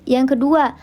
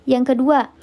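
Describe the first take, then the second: No difference in how they are said.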